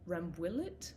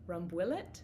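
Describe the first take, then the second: First: The word is pronounced with English sounds. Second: The same.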